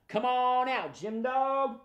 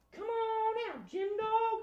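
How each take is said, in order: First: Raised-pitch call, drawn out; big calling voice. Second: Very high, soft echoing call; tiny falsetto voice calling out. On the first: Shown as a demonstration. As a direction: call the puppet out for everyone to repeat. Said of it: "In a big, loud voice". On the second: Pretend. High echo of the group call.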